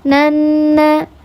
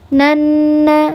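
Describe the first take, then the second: The two takes are said the same way.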